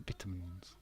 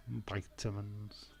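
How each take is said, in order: First: Vitamins with a short i, VIT-a-mins, said very softly; hushed British VIT-a-mins. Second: Vitamins with a long i, VY-ta-mins, slow and soft; soft American VY-ta-mins. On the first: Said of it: "vitamins is what we call it". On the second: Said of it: "A lot of them call it vitamins". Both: Shown as a demonstration.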